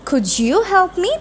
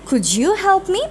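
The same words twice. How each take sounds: First: The d and y blend into a j sound. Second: The d and y blend into a j sound.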